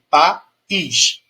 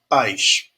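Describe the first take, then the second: First: The word is split into two separate syllables. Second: The word is said as a single syllable. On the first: "ele tem um som independente" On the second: "o I, ele se apoia no A"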